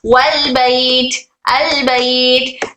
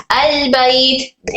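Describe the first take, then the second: First: वल बैत slowly, the अलिफ dropped and linked; joined hamza. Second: अल बैत said slowly, joined in one flow; flowing together. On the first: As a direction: blend वल into बैत with no glottal stop. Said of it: "हमजतुल वस्ल का जो हमजा है वो flow में आता है". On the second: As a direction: let अल glide into बैत without a break. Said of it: "एक फ्लो में था". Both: Shown as a demonstration.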